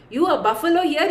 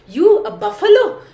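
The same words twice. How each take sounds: First: A gentler laughing repeat; laughing scorn. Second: Louder and higher, laughing at him; mocking laughter, raised; laughing scorn. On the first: Retold or imitated. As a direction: chuckle through it, mocking. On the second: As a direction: laugh it out in open mockery. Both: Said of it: "just laughs and says".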